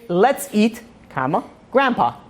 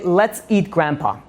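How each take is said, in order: First: There is a break before "grandpa". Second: It runs straight on with no break. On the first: Grandpa is being invited to eat. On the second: Grandpa is the one to be eaten.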